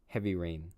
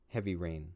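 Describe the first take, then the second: Both takes have the same delivery.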